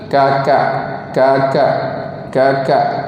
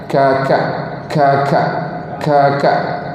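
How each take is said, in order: First: The k sounds are plain with no added breath. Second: The k sounds are pressed with slight breath. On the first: This is how Malay speakers say it. "Macam kalau kita" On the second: This is how Arabic speakers say it.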